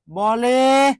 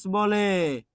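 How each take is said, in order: First: বলে said "baw-le", open first vowel; open-vowel pronunciation. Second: বলে said "bo-le", closed o; o-sound pronunciation. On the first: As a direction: say বলে without o-kar, "baw-le". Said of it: "ঠিক same একইভাবে". (বলে-র ব-তে খোলা অ উচ্চারণ) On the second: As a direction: say বলে with an o-kar, "bo-le". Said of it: "ওকার দিয়ে করতে হবে". (বলে-কে ওকার দিয়ে "বোলে" উচ্চারণ) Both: Shown as a demonstration.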